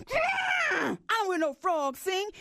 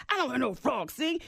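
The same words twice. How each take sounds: First: Elephant heckling shout. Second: Said in the usual way. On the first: Acted. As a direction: bellow the heckle from the crowd. The elephant jumped up.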